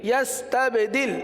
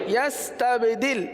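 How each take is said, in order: Both takes have the same delivery.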